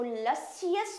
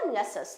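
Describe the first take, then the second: First: लसियस drawn out slowly with every syllable sounded; stretched-out syllables. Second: लसस in two joined syllables, "lu-shus"; short common form. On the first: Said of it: "इतना बड़ा करके नहीं बोलते". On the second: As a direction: say लसस compactly, without the middle "i". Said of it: "ज़्यादातर लसस ही बोला जाता है". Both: Shown as a demonstration.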